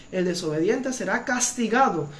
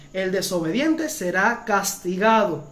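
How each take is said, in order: The two takes are said the same way.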